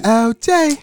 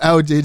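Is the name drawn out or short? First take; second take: drawn out; short. First: The name is drawn out and stretched. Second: The name is said short and plain. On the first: The speaker calls it right. "when I drag it sound real" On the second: The speaker calls it wrong. "it didn't sound right when you said it the real way"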